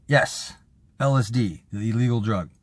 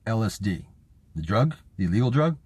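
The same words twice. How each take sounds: First: "the illegal drug" stated with a falling end; retold firm answer, "illegal drug" as a statement; emphatic confirmation. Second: "The illegal drug?" lifted into a rising question; retold doctor checking "illegal drug" with rising tune; incredulous questioning. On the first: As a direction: confirm each bit, dropping on "drug". Acted patient confirming the doctor's question. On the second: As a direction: query each bit in disbelief, up on "drug".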